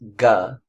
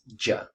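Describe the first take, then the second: First: The consonant is a hard g sound. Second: The consonant is a soft j sound. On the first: This is the Egyptian dialect pronunciation. "Egyptian is ga" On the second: This is the Modern Standard Arabic pronunciation. "M S A is ja"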